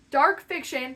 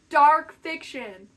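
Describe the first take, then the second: First: Said in the usual way. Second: "dark fiction" slow, loud, each word weighted; dramatic reveal. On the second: Acted. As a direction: land "dark fiction" slowly and heavily. Dramatic reveal of her niche.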